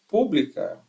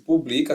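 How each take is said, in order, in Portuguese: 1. A tônica é a primeira sílaba. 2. A tônica é a segunda sílaba. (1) "Toda vez que a terceira é a mais forte" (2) "era paroxítono, né? Segunda sílaba mais forte"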